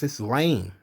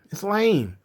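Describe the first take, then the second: First: Said in the usual way. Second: "lame" pushed higher with scorn; emphatic repeat. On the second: Real, not acted. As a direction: repeat "It's lame." with more punch on "lame".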